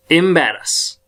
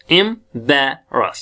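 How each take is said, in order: First: Said in the usual way. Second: "embarrass" slowly as em, bae, ras; split into syllables. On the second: Shown as a demonstration. Teacher drilling the word, "embarrass" in three slow pieces. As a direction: pause after each part of "embarrass". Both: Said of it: "तो अब क्या sound आएगी".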